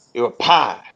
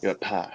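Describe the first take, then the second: First: Said in the usual way. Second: Quietly echoing the answer; hushed mock acknowledgment; soft murmured repeat. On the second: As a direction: murmur it back softly. Repeats guest's answer twice.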